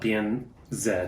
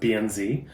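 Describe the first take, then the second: First: The last letter is said as 'zed'. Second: The last letter is said as 'zee'. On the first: This is how the bank's own country says it. "They pronounce the Z as Z" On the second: This is how American English speakers say it. "for those of you who speak the American English"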